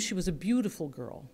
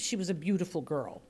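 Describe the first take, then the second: First: The word beautiful is said with vivid emphasis. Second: The word beautiful is said flatly, without color. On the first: The listener begins to picture the description. The speaker calls it right. "you hear that differently and you begin to picture girls" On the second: The description makes little impression. The speaker calls it wrong. "meh, you know, okay, cool"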